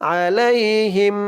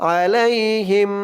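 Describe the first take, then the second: The two takes are said the same way.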